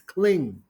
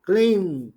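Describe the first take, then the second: First: The word ends with an ng sound. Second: The word ends with an ng sound.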